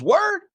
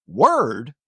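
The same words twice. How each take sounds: First: High, questioning Word; mock cellmate asking Word; cellmate's slang. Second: Lower, puzzled repeat of Word; clueless copy of Word; confused echo. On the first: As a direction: toss it off like a street greeting. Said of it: "He looks at me and he says". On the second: Retold or imitated. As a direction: echo it back not knowing what it means. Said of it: "And I'm like".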